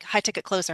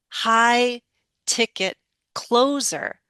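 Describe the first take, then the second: First: The stressed vowels are short and not lengthened. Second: The stressed vowels are clearly lengthened. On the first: The speaker calls it wrong. "that's why I couldn't catch when you're like" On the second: The speaker calls it right. "You're now lengthening those stressed vowels"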